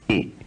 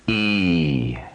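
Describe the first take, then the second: First: The vowel is held briefly. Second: The vowel is held twice as long. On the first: "a short vowel sound at position two" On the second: "Lengthening the vowel sound E at position two, sustaining it, giving it two matras"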